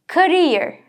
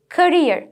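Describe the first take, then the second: No difference in how they are said.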